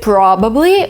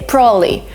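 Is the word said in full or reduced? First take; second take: full; reduced. First: Every syllable of the word is said clearly. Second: The word is said quickly with sounds dropped. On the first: "we tend to read it probably, which is, again, the right way to say it" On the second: "they tend to speak faster, so they're kind of emitting some sounds, and they say probably"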